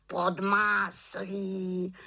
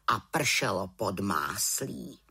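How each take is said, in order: First: High, slow jeering raven; mocking raven. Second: Said in the usual way. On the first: A narrator's reading. Raven mocking the butter rain, high slow jeer. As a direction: drag out pod máslí mockingly. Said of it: "krákal havran".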